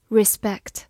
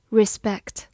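The two takes are said the same way.

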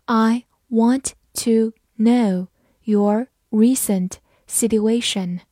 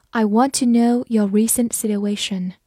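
First: Slow, drawn-out reading. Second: Said in the usual way. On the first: Shown as a demonstration. Teacher slowing the sentence down for learners. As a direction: read it slowly word by word. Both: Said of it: "好，慢慢来读。".

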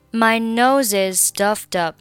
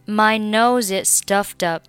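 No difference in how they are said.

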